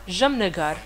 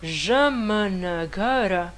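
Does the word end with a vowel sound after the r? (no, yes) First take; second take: no; yes. First: The word ends on the consonant 'r'. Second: The word ends with a final 'a' vowel. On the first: The speaker calls it right. "on dit Jamnagar, sans le E" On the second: The speaker calls it wrong. "on écrit Jamnagara. ... Mais personne dit ça"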